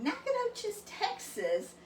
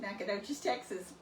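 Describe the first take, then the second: First: Incredulous. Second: Said in the usual way. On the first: Retold or imitated. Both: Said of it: "he didn't believe me".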